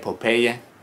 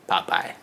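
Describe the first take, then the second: First: It is said the Spanish-speaking way. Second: It is said the American English way.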